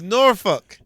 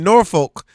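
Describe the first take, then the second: First: The second syllable sounds like fuck. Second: The second syllable sounds like folk. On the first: This is how locals say it. The speaker calls it right. "Act like you saying the F word" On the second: This is how outsiders say it. The speaker calls it wrong. "That's how they be saying Norfolk. It's not Norfolk"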